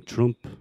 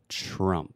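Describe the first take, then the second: First: "Trump" with an "oo" vowel, like "troomp"; learner's mistaken "oo" in "Trump"; wrong vowel. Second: "Trump" with a relaxed "uh" vowel; drawn-out "Trump" on a schwa. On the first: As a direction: say "Trump" with a rounded "oo" instead of "uh". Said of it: "We're not saying Trump". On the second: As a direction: slowly model "Trump" to rhyme with "jump". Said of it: "That is the schwa sound". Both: Shown as a demonstration.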